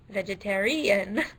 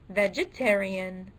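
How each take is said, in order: First: The stress is on the fourth syllable. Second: The stress is on the second syllable. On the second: "the second syllable"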